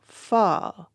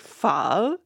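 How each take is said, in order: First: The tone stays level without a question-like rise. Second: The tone dips and rises like a question. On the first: "So that's that pho becomes pho" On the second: "it becomes the interrogative. ... you're always asking a question"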